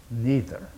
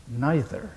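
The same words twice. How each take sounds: First: "Neither" with a long ee vowel, NEE-ther; NEE-ther pronunciation. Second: "neither" with a long eye vowel, NY-ther; NY-ther pronunciation. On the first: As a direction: say "Neither" with the first syllable like "knee". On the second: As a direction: say "neither" to rhyme with "scyther", first syllable like "nigh". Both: Shown as a demonstration. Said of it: "how do you say it in American English?".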